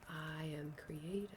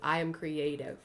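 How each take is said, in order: First: It is said plainly, without extra force. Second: It is said with more strength and gumption.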